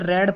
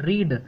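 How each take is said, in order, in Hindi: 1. स्वर छोटी 'e' वाली आवाज़ है। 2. स्वर लंबी 'ee' वाली आवाज़ है। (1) "सेकंड फॉर्म हो या फिर थर्ड फॉर्म हो तो उसे रीड नहीं, उसे रेड पढ़ते हैं" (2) "जब अगर आप फर्स्ट फॉर्म होती है ना रीड, तो उसको हम पढ़ते हैं रीड"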